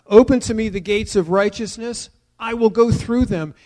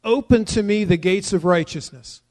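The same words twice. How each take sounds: First: Louder, higher "Open to me the gates of righteousness"; emphatic petition. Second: Scripture read out plainly. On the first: Preacher repeating the verse as a strong personal plea. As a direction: plead it out with force. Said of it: "It's an act of volition". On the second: Preacher reading the verse to the congregation, plainly. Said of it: "continues in verse nineteen with a petition". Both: Shown as a demonstration.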